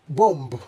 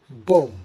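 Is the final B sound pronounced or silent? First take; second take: pronounced; silent. First: The final B sound is pronounced. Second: The final B sound is silent. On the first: The speaker calls it wrong. "it is wrong to pronounce the B at the end of this word" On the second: The speaker calls it right. "the B at the end is silent"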